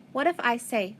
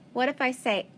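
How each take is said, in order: Both takes have the same delivery.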